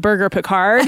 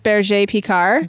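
First: The first word sounds like the English word burger. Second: The first word is said in the original, non-English way. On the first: This is the simpler way used so people understand. "when you tell them it's a burger picard" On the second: This is the official way to say the breed name. "the way you're supposed to say it is berger picard"

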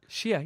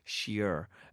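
First: It is said in a Boston accent. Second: It is said in her own non-Boston accent. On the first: "I can do the Boston accent" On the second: "I was saying that in a way that people didn't understand earlier on"

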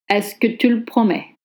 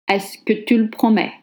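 No difference in how they are said.

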